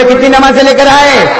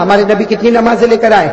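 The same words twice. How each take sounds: First: Asked again louder to rouse the crowd; louder repeat. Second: Said in the usual way. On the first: Shown as a demonstration. Preacher repeating the question louder for the audience to answer. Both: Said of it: "آواز سے بولو نا".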